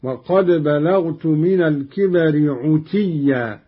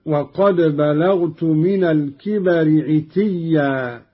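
First: عتيا said as "'utiyya"; damma on ayn. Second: Said in the usual way. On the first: Shown as a demonstration. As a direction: round the first vowel of عتيا to a short u. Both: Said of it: "بضم العين هكذا".

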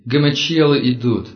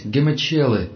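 First: Loud, frightened cry of alarm; panicked shout. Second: Higher panicked cry; panicked shout. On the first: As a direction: yell it as a warning in panic. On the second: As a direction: scream the word in terror. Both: Acted. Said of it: "Подгоняемый пронзительными выкриками".

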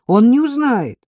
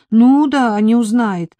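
First: High, louder reassurance; persuading. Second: High, loud scoffing echo; sceptical retort. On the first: Narrator coaxing frightened Marika to stay over, persuading. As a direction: press the point to win her over. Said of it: "убеждала я". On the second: Marika doubting her employer won't notice, sceptical retort. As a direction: throw it back in disbelief. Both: A narrator's reading.

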